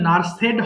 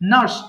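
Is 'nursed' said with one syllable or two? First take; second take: two; one. First: The ending is said as an extra 'ed' syllable. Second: The ending is one syllable with no extra vowel. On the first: The speaker calls it wrong. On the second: The speaker calls it right.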